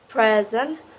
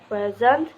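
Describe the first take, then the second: First: The stress is on the first syllable. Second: The stress is on the second syllable. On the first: It is used as a noun. "The first syllable in a two-syllable noun is emphasized" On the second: It is used as a verb. "The emphasis of each two-syllable verb is on the second syllable"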